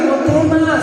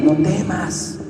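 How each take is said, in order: First: "No temas" pitched up, pressed and firm; a raised, urgent "No temas"; firm raised reassurance. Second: Softer, soothing "No temas"; quiet comfort after a worried cry; gentle, settled "No temas"; calm reassurance. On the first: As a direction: insist over the worried voice. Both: Retold or imitated. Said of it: "les dio palabra".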